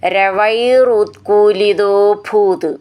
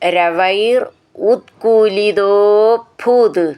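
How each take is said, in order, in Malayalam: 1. വാക്കുകൾ ഇടവേളയില്ലാതെ ഒന്നിച്ചാണ് പറയുന്നത്. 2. വാക്കുകൾ ചെറിയ ഇടവേളകളോടെ വേർതിരിച്ചാണ് പറയുന്നത്.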